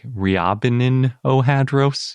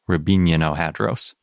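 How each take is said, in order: First: The name is read the way it is written. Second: The name is said with its Russian pronunciation. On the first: "it's spelled kind of like Ryabinin-ohadros" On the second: "I looked up the Russian pronunciation, and I'm pretty sure it's more like"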